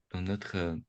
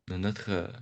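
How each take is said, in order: Both takes have the same delivery.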